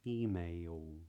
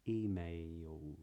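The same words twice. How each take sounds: The two takes are said the same way.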